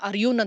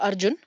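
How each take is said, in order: First: The middle consonant is a y sound. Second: The middle consonant is a j sound. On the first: This is how many people abroad say the name. "ಜೇನ ಯ ಅಂತ pronounce ಮಾಡ್ತಾರೆ" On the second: This is the name as it is normally said. "ನನ್ನ husband ಹೆಸರು ಅರ್ಜುನ್"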